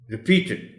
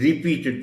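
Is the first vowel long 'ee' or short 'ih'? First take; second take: short ih; long ee. First: The first syllable has a short weak vowel. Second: The first syllable has a long ee vowel. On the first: The speaker calls it right. "र अ sound के साथ शुरू करना है" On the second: The speaker calls it wrong. "आर ई repeated नहीं कहना"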